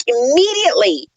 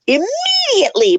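First: Said in the usual way. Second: "immediately" pitched up with heavy stress; emphatic stress. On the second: Real, not acted. Renter-hater complaining about new neighbours, heavy stress on "immediately". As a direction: punch and stretch "immediately" in disbelief.

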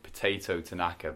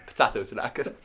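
First: Said in the usual way. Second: American accent. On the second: Shown as a demonstration. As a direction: say Potato Tanaka in a broad American accent. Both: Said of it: "but in an American accent".

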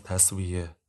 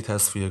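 First: "تصفیه" said as tasvie, with a v; corrected pronunciation. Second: "تصفیه" said as tasfie, with an f; mispronounced word. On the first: Judge corrects the lout's word. («تصفیه» با صدای واو، تَسویه) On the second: Lout mispronounces, judge corrects it. («تصفیه» با صدای ف، تَصفیه) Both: Acted.

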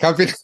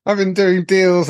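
First: Said in the usual way. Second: High, laughing, slow brag; giggling mock gangster brag; laughing mock boast. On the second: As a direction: lets a laugh break through the boast. Laughing mock boast as drug lord.

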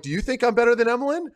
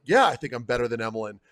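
First: Higher, louder and fast comeback to the GM; fast, raised "do you think I'm better than Emelin" thrown back at the GM; retorting. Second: Said in the usual way. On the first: Retold or imitated. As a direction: fire the question back quickly, a bit riled up. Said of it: "I'm like". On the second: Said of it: "And I'm like".

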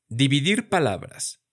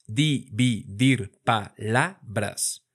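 First: Said in the usual way. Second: "Dividir palabras" spoken slowly, one syllable at a time; slowly split into syllables. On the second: Shown as a demonstration. Teacher splitting a phrase into syllables for students. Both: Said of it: "Vamos a practicar nuestra división silábica".

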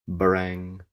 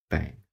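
First: Loud, sustained imitation of a bell; bell clang. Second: Short, subdued imitation of a bell; a weak little clang, not held; feeble bell. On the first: Lackey rings his bell behind them, clanging. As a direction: ring the word out on a held note. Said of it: "The lackey rang his bell". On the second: Lackey shakes the clapper of his bell, feebly. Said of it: "but feebly". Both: A narrator's reading.

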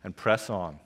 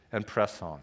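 Both takes have the same delivery.

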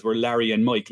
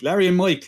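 First: Said in the usual way. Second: LARRY punched high and loud; incredulous repeat. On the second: Acted. Podcaster marvelling at the pairing, incredulous stress on "Larry". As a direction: hit "Larry" high and hard, then drop on "Mike".

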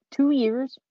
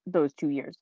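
First: High, loud rising question on "Two years"; incredulous. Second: Said in the usual way. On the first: Real, not acted. Host doubting nobody deserved a nomination, incredulous. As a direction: throw "Two years" back in disbelief. Repeats it in disbelief.

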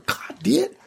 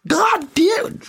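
First: High, drawn-out catchphrase; Khaled imitation. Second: Very high, crying catchphrase wail; Khaled imitation. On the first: Quoting Khaled's Last Supper closer, high imitated wail. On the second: Quoting Khaled closing the show, bigger crying imitation. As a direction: build the mock wail higher and fuller.

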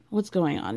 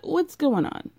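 First: Said in the usual way. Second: High, puzzled question; confused asking. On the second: Retold or imitated. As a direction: ask it up high, bewildered. Everyone asking, first take.

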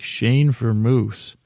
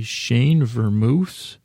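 First: Said in the usual way. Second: Slow, questioning read of "Shane Vermouth" with a rising end; puzzled reading. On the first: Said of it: "It's what it looks like". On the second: Real, not acted. Deciphering his own messy notes, puzzled. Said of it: "And what does this say?".

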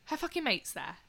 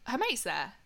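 First: Fucking said higher and indignant; stress on fucking. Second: Said in the usual way. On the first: Shown as a demonstration. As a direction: hit fucking hard, with a higher pitch.

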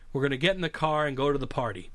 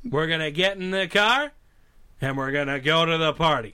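First: Said in the usual way. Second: Put-on supposed Boston accent that stays pure cowboy star; John Wayne. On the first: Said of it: "we want you to say". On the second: Star failing a requested Boston accent, John Wayne impression. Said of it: "we need you to do a Boston accent".

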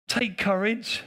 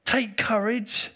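First: Said in the usual way. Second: Breathy slow whisper of the phrase. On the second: Shown as a demonstration. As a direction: whisper it gently, drawn out.

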